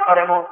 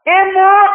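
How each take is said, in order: First: Said in the usual way. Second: High, loud cry of disbelief; stunned husband's loud question; shocked question. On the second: Acted. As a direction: blurt it out in acted shock. Husband hears son died.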